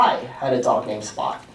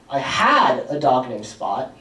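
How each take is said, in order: First: The word 'I' carries the main stress. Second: The word 'had' carries the main stress. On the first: The dog belonged to me, not someone else. "It wasn't your dog, it was my dog" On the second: I no longer have the dog. "I don't have Spot anymore"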